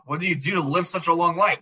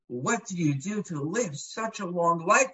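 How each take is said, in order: First: It sounds exasperated and annoyed. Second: It sounds amazed and admiring. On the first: The long life is a nuisance. "geez, ... When are we going to get rid of you already?" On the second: The long life is impressive.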